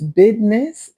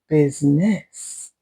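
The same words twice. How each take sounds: First: The word is said in a casual, reduced way. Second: The word is said with every sound clearly enunciated. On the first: "it's business" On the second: "instead of business"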